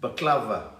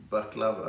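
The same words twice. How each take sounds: First: Baklava said as bə-KLA-və, first a reduced to a schwa; the wrong take baklava, with a weak first syllable; pronunciation correction. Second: Baklava said BAK-la-və, with a full open first a; the right take Baklava, first syllable bak said clearly; pronunciation correction. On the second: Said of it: "Baklava, okay". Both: Shown as a demonstration.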